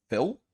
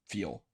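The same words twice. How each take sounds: First: Higher, questioning "Feel?"; rising question. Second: Quiet. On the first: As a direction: lift "Feel?" into a puzzled question. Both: Real, not acted.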